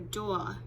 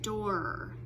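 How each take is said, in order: First: The final R is replaced by a vowel. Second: The final R sound is clearly pronounced. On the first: The speaker calls it wrong. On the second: The speaker calls it right.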